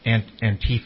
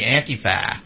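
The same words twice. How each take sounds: First: The stress is not on the 'ah' sound. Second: The stress is on the 'ah' sound. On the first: The speaker calls it wrong. "I hate that pronunciation" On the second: The speaker calls it right. "The emphasis should be on the ah"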